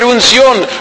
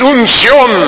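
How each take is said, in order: First: It is said in a plain, normal voice. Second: It is said in an exaggerated, dramatic preacher voice.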